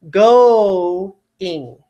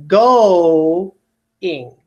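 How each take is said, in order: Both takes have the same delivery.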